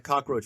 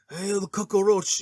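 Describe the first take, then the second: First: Said in the usual way. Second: Higher, slow, hammed-up Scarface accent; mock the gangster's thick movie accent; drawn-out imitation Scarface accent; Al Pacino's Scarface accent. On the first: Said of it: "he calls people, like, cockroach". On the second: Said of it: "his accent".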